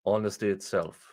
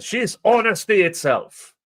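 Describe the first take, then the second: First: Low, flat sarcastic echo; sarcastic deadpan. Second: High, gushing fake praise; mock gushing praise. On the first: Real, not acted. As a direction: mutter it with disbelief. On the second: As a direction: gush it like an admirer. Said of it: "people who said".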